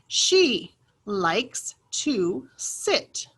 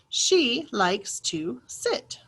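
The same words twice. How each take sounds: First: The sentence is read at a slower pace. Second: The sentence is read at a faster pace.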